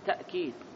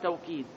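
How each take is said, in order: First: A glottal stop follows the first consonant. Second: A w sound follows the first consonant. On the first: "ويقرأ بالهمس تأكيد" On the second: "يقرأ بالواو توكيد"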